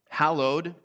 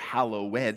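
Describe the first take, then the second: First: It is said the ordinary modern way. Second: It is said the old-fashioned way.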